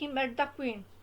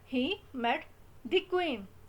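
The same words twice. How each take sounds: First: 'The' is said with a short 'uh' vowel. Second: 'The' is said with a long 'ee' vowel. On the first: The meeting is mentioned without special importance. "अगर आप emphasise नहीं करेंगे" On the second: Meeting the queen is highlighted as special. "वो queen पे emphasise कर रहा है"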